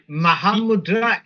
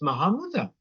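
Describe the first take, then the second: First: It is said slowly with full Sanskrit-style sounds. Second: It is said in the local dialect pronunciation. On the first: "if you're saying it slowly, like using Sanskrit" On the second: "if you're using the local dialect"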